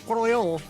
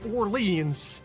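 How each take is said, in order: First: The name is said with a French pronunciation. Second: The name is said with an English pronunciation. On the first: It refers to the city in France. "If you say Orléans, that's in France" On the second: It refers to the city in Louisiana. "If you say Orleans, that's in Louisiana"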